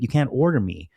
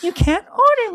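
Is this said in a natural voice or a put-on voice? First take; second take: natural; put-on. First: It is said in the speaker's natural voice. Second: It is said in a put-on imitation voice.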